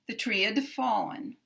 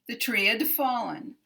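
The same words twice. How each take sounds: Both takes have the same delivery.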